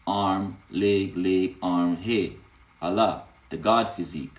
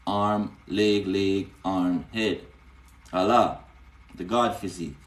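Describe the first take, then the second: No difference in how they are said.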